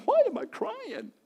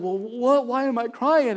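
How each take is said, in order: First: Put-on much higher, slow, puzzled little boy; little boy's voice. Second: Said in the usual way. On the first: A little boy weeping after worship asks his mom, in a high slow puzzled child voice. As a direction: ask it like a bewildered small child.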